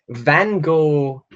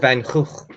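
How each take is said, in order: First: The name is said with English sounds. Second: The name is said with Dutch sounds.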